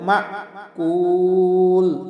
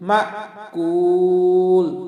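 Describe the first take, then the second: No difference in how they are said.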